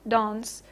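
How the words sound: It has a long back 'ah' vowel, British style. "pronounced uh, like this in Southern British English"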